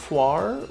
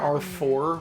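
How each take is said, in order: First: It starts with 'ar' and has a French-sounding ending. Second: It sounds like the letter R and four. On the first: This is how the players have been saying it. "we've been pronouncing it Arfoire" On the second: This is how the game says it. "They're they're calling her R four"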